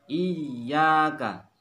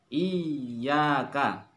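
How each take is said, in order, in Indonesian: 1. Bunyi y diucapkan rangkap dan ditekan. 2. Bunyi y diucapkan rangkap dan ditekan.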